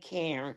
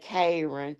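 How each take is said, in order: First: The name has a standard, general American pronunciation. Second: The name has a Southern country Georgia pronunciation. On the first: This is how other people say it. "We don't say Karen" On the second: This is how people in Georgia say it. "here in Georgia, we real country. We say Karen"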